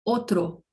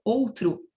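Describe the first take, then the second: First: "outro" said in Spanish as otro, full O at both ends; careful, set-apart "outro" as Spanish otro, no U sound; final O kept. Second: "outro" said the spoken Portuguese way, ending in U; final O as U. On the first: Teacher modelling Spanish for learners, both O sounds kept. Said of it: "sempre com som de O". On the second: Teacher showing spoken Portuguese habit, final O turned to U. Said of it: "costumamos falar com som de U". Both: Shown as a demonstration.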